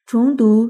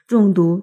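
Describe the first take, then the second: First: 重读 opening on chóng, second tone; 重读 read as chóngdú. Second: 重读 opening on zhòng, fourth tone; 重读 read as zhòngdú. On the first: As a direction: say 重读 as chóng dú, as in repeat. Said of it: "就是回头再读". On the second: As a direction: say 重读 as zhòng dú, as in heavy. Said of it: "就是读得重一点". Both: Shown as a demonstration.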